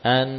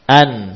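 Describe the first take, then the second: First: The final nasal sound is kept short. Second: The final nasal sound is held too long. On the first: The speaker calls it right. "Jangan diperpanjang lagi" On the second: The speaker calls it wrong. "yang namanya sudah merubah sifat aslinya"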